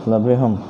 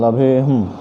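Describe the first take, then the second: No difference in how they are said.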